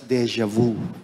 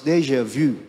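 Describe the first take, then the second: First: It is said with a Filipino pronunciation. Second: It is said with a French pronunciation. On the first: The speaker calls it wrong. "sa Pilipinas" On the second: The speaker calls it right. "It's supposed to be pronounced as déjà vu"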